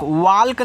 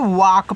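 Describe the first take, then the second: First: वाल्क with a sounded L, the wrong way; वाल्क spoken with an audible L; wrong pronunciation. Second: वाक with a silent L, like wok; वाक as a clean short wok; correct pronunciation. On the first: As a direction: say वाल्क with the L pronounced, as the mistake. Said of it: "वाल्क नहीं पढ़ना है". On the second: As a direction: say वाक with no L at all. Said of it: "वाक पढ़ना है". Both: Shown as a demonstration.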